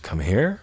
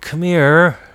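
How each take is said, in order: First: It is said in a confused, puzzled tone. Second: It is said in a pleading, begging tone. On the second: "We can beg"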